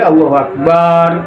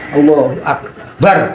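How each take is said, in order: First: The vowel in the last syllable is drawn out. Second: The vowel in the last syllable is short. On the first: The speaker calls it wrong. "Yang barnya itu tidak boleh panjang" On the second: The speaker calls it right. "barnya harus Allahu Akbar"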